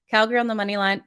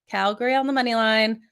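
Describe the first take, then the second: First: It is said fast. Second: It is said slowly.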